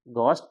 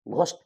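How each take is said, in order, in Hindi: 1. पहला व्यंजन सादा 'g' है। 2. पहला व्यंजन महाप्राण 'gh' है। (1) "एच नहीं पढ़ना है" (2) "जीएच से घ पढ़ते हैं ... जबकि गलत।"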